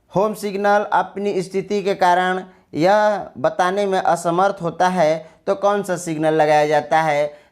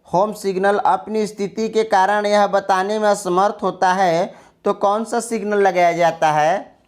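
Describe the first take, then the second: The two takes are said the same way.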